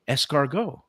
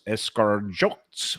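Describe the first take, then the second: First: It is said with a French pronunciation. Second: It is said with a local Midwestern American pronunciation.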